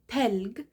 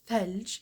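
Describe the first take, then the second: First: It starts with t and ends with g. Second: It starts with th and ends with j. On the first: This is the Egyptian dialect form of the word. "we say Telg" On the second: This is the non-Egyptian form of the word. "In Egypt, we don't say Thelj"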